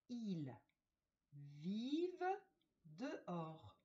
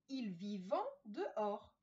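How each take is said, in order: First: The verb ends without a nasal 'en' sound. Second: The verb ends with a nasal 'en' sound. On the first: The speaker calls it right. "dans cette phrase, on ne dit pas le en" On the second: The speaker calls it wrong. "on ne dit pas"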